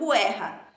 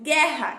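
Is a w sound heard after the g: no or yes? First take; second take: yes; no. First: The u after the g is pronounced. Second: The u after the g is silent. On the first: The speaker calls it wrong. "e não guerra" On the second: The speaker calls it right. "Eu digo guerra"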